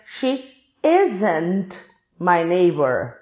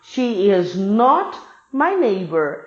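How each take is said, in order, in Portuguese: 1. As palavras 'is not' são contraídas para 'isn't'. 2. As palavras 'is not' são faladas por extenso.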